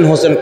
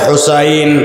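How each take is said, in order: First: The name is said with o and e vowels. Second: The name is said with u and ai vowels. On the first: The speaker calls it wrong. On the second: The speaker calls it right.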